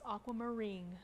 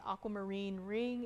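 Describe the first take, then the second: First: It is blended into one single word. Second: It is said as two separate words. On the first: "combine two words into one" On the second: "Instead of saying aquamarine ring"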